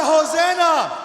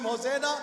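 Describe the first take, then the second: First: Full-force shout, high and drawn out; loudest shout. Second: Moderately raised call, not a full scream; raised call of Hosanna. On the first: Preacher demanding Hosanna one more time, full-force shout. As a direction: belt it out to whip up the crowd. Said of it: "say it louder". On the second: Preacher prompting the children to scream, raised call. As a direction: call it out to get others joining. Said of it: "Can somebody scream". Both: Shown as a demonstration.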